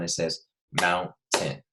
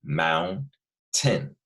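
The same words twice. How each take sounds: First: Mountain stretched slowly, split after the n; syllables drawn out. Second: Mountain broken after the n, falling; syllable split. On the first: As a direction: say mountain slowly so the break shows. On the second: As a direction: split Mountain into its two beats. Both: Shown as a demonstration. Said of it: "listen to where it separates".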